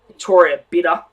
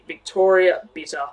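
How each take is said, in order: First: The T sounds are softened like a D. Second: The T sounds are said crisply.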